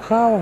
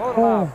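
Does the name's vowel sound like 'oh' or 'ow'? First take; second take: ow; oh. First: The vowel sounds like 'ow'. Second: The vowel sounds like 'oh'. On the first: This is how the name is said in its home country. "Но ведь они его Хау произносят. Наверное, так это правильнее" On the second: This is the habitual local way of saying the name. "Для нас он Хоу"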